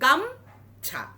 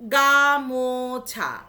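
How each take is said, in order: First: The word is said with two syllables. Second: The word is said with three syllables. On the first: "এই দুটোকে আমি একসঙ্গে উচ্চারণ করে বললাম" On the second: "গা একটা মাত্রা, মো একটা মাত্রা, ছা একটা মাত্রা"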